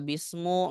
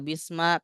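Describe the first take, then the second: First: The word ends with a u vowel. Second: The word ends with an a vowel. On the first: "Nggak boleh dibaca bismu" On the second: "nggak boleh dibaca bisma"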